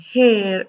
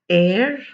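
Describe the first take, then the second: First: The word begins with an audible H sound. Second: The word begins with a vowel, no H. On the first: The speaker calls it wrong. "pronouncing this word as ... hair" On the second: The speaker calls it right. "The correct pronunciation is, listen to me again"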